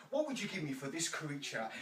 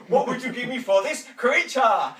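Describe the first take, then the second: First: Said in the usual way. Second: Loud, high auctioneer's cry over the crowd; booming auctioneer bid; auctioneer's call. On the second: Acted. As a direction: call the bid out big and bright. Auctioneer calling to audience.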